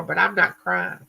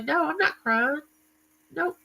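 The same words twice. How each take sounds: First: Said in the usual way. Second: Put-on higher stubborn little-kid refusal; defiant child. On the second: Hard-headed child refusing to cry while spanked, higher defiant voice. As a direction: dig in your heels like a hard-headed kid. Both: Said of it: "And I would say".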